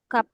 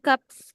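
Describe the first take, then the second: First: The word ends with a bare p sound. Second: The word ends with a p followed by s. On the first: The speaker calls it right. "Maka ini dibaca gap" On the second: The speaker calls it wrong. "Jangan gaps gitu ya"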